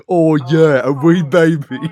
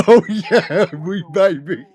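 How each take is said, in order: First: High, loud hammed-up British accent; bad British accent. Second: High laughing mock British accent; bad British accent. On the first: Quoting a movie character's bad British accent, high mock British. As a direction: mimic a terrible British accent. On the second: Repeating the movie's bad British accent, high laughing mock British. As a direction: redo the awful British accent, cracking up. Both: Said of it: "We're doing British accents".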